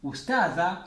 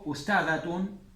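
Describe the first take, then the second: First: The word ends in an open vowel. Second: The word ends in a full tun syllable. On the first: "Ustada y lo cortan acá" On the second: "O ustadatun y leen todo esto"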